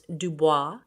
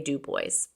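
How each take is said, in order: First: It uses a pronunciation other than the Pennsylvanian one. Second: It uses the local Pennsylvanian pronunciation. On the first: This may be the name's usual pronunciation. "It might be pronounced Dubois" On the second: This is how people from Pennsylvania say it. "us Pennsylvanians say Dubois"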